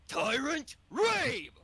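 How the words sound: It is delivered in English dub style.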